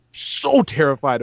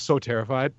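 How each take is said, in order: First: "so" drawn out long and slow; emphatic SO. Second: Said in the usual way. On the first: Real, not acted. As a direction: stretch the word "so" for emphasis. Repeats it for emphasis.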